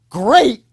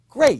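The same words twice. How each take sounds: First: It is an exaggerated Tony the Tiger voice. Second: It is calm and certain, slightly upbeat.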